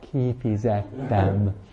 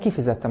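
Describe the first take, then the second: First: The word is said more slowly. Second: The word is said at a normal pace.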